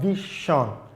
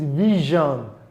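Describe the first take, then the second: First: The middle consonant is not a voiced 'zh'. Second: The middle consonant is a voiced 'zh' sound. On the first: The speaker calls it wrong. "not vision" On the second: The speaker calls it right. "the word is vision"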